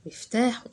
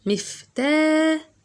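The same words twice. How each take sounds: First: Said in the usual way. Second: مفتاح drawn out very slowly and high; stretched word. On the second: Shown as a demonstration. Teacher to pupils, stretching out مفتاح very slowly. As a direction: stretch مفتاح out so each sound is heard. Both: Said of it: "طولت".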